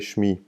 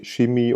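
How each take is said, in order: First: No vowel sits between sh and m. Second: An i vowel sits between sh and m. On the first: The speaker calls it right. "You say shmi" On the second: The speaker calls it wrong. "you don't say shimi"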